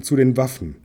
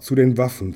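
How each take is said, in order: First: Lauter Ruf, Betonung auf „zu“; „zu den Waffen“ noch einmal, „zu“ kräftig betont; dringender Alarmruf, wiederholt. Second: Lauter Ruf, Betonung auf „den“; „zu den Waffen“ als Warnung, „den“ betont; dringender Alarmruf. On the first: (Bart wiederholt den Alarmruf, „zu“ betont) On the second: (Bart warnt den Meister, Betonung auf „den“) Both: A narrator's reading. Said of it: "schrie er".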